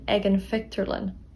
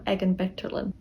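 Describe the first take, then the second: First: The last word begins with an f sound. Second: The last word begins with a b sound. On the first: This is the form the speaker would use. The speaker calls it right. "Mar sin dearm hain" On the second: This is the form the speaker would not use. The speaker calls it wrong. "Ní dearm"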